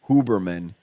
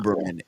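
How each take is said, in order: First: The name starts with an h sound. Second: The name starts with a vowel, no h. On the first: The speaker calls it right. "it's Huberman" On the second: The speaker calls it wrong. "it's not Uberman"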